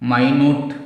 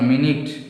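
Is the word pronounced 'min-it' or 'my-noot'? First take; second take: my-noot; min-it. First: The word is pronounced like my-noot. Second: The word is pronounced like min-it. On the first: It means very small. "மைனூட்னா ரொம்ப சின்னது" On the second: It means a unit of time. "மினிட்னா என்ன அர்த்தம்? நிமிடம்னு அர்த்தம்"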